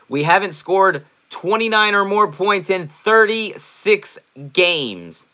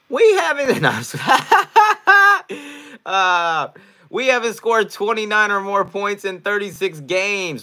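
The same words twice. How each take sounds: First: It is read in his ordinary speaking voice. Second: It is read in an imitated comedian's voice.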